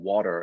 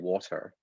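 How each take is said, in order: First: The T sounds soft, in an American way. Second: The T sounds crisp, in a British way. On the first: "I stopped saying water" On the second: "I sounded more British when my I stopped saying water and started saying water"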